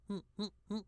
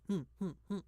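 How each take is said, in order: No difference in how they are said.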